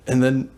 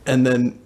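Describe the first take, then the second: No difference in how they are said.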